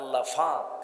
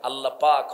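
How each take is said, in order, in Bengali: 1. দ্বিতীয় শব্দটি 'f' ধ্বনি দিয়ে শুরু হয়। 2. দ্বিতীয় শব্দটি 'p' ধ্বনি দিয়ে শুরু হয়।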